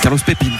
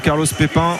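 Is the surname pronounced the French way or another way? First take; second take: another way; French. First: The surname is pronounced a non-French way. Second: The surname is pronounced the French way. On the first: The speaker calls it right. "je crois qu'on dit Carlos Pépine" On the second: The speaker calls it wrong. "J'ai prononcé à la française"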